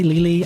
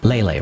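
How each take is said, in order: First: The name sounds like 'Lily'. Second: The name sounds like 'Lele'. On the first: The speaker calls it wrong. "I said it Lily in the beginning" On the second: The speaker calls it right. "it's Lele actually"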